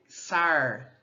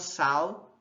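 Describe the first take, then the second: First: The final l becomes a retroflex r. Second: The final l becomes a w-like glide. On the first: "o R caipira, o retroflexo, a gente pode dizer sar" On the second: "essa lateral ela se transforma em uma semivogal"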